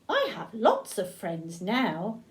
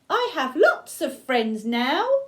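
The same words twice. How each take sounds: First: It is said at a normal, softer volume. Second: It is said very loudly.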